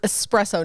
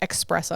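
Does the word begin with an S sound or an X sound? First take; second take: S sound; X sound. First: The word begins with an S sound. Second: The word begins with an X sound. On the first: The speaker calls it right. "it's espresso" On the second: The speaker calls it wrong. "not espresso. The ex"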